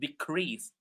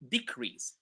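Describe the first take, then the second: First: The stress is on the second syllable. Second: The stress is on the first syllable. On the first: It is used as a verb. "When they are verbs, we stress the second syllable" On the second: It is used as a noun. "when these words are nouns, we stress the first syllable"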